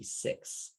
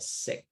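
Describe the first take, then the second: First: The word ends in a ks sound. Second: The word ends in a plain k sound. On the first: The speaker calls it right. "It's supposed to be six" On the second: The speaker calls it wrong. "you said sick"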